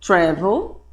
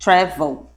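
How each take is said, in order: First: Travel with stress on the first syllable, TRA-vel. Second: Travel with stress on the last syllable, tra-VEL. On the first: Teacher showing the class the American stress. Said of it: "você pode ler". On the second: Teacher showing the class the British stress. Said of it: "ou você pode ler assim". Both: Shown as a demonstration.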